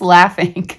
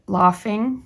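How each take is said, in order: First: The first vowel is plain, not as in father. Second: The first vowel is broad, as in father. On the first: The speaker calls it right. "It's just laughing" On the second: The speaker calls it wrong. "they're saying to pronounce it laughing, like father"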